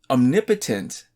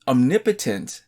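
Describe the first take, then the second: First: The 'potent' part of the word is unstressed. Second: The same.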